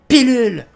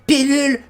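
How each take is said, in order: First: The first vowel sounds like a clear 'i'. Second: The same.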